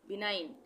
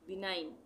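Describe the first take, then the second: The two takes are said the same way.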